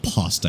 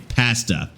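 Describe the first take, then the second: First: It is said with an Italian-style pronunciation. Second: It is said with a Canadian-style pronunciation. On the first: The speaker calls it wrong. "It's not pasta because I'm not Italian" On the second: The speaker calls it right. "I'm Canadian, so I say pasta"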